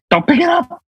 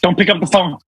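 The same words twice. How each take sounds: First: High, urgent horror-film warning; horror movie warning. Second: Said in the usual way. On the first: Retold or imitated. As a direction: warn the victim like in Scream.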